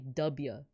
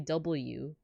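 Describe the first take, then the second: First: The letter is said in short form as dubya. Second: The letter is said in full as double-u. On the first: The speaker calls it right. "You got to say W, like D U B, uh, Y A W" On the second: The speaker calls it wrong. "you can't say W for for this president"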